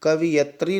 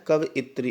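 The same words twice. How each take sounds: First: कवियत्री as ka-vi-yat-ri; swapped-vowel mistake. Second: कवियत्री as ka-va-yit-ri; correct vowel order. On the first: Teacher showing a common exam error, कवियत्री as ka-vi-yat-ri. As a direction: say कवियत्री wrongly, "i" after the v. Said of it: "कवियत्री नहीं होता है". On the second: Teacher correcting students, कवियत्री as ka-va-yit-ri. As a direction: put the "i" after y in कवियत्री. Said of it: "इस तरह से लिखा जाता है". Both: Shown as a demonstration.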